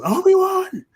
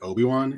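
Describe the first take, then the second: First: It is yelled angrily, like Anakin in rage. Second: It is said pleadingly, like Anakin asking for help.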